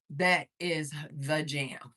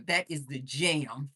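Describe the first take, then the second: First: THAT IS THE JAM, slow, word by word; emphatic repeat. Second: Said in the usual way. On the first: Real, not acted. Livestreamer vouching for Jamaican castor oil, slowly emphatic. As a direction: set apart each word of "That is the jam".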